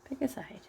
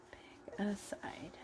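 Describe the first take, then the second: First: Said in the usual way. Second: Slow, soft whispered repeat; whispering. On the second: Real, not acted. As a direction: breathe it out slowly, whispered. Coaxing stuffing piece, repeated.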